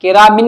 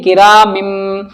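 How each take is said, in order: First: Said in the usual way. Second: "किरा मिम" with a long hummed final m; n changed to m. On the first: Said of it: "नहीं". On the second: Shown as a demonstration. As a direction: hold the closing m of "मिम". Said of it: "किरा मिन नहीं". ("मिम" का आख़िरी मीम खींचकर)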